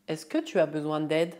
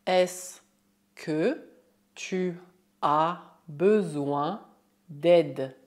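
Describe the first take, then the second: First: Flowing French question at natural pace; normal speed. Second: Slow, word-by-word French question. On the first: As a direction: say it smoothly in one go. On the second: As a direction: spell it out slowly, pausing after each word. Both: Shown as a demonstration. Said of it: "é possível usar a fórmula est-ce que oralmente".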